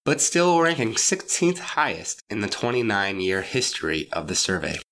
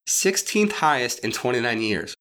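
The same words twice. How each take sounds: First: Said in the usual way. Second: Sixteenth stressed, slow and pointed; slow, each word weighed, Sixteenth leaned on. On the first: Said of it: "The Bay Journal even said verbatim". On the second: Shown as a demonstration. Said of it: "completely and utterly average".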